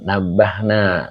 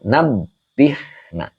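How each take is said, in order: First: "nabahna" with an a in the middle syllable; wrong vowel. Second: "nabihna" in separate syllables, nab, bih, na; correct vowel. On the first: Retold or imitated. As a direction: say "nabahna", middle syllable BAH rather than BIH. Reads out a learner's wrong answer. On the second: Shown as a demonstration. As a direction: say "nabihna" with BIH in the middle, not BAH. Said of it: "ini yang benar adalah".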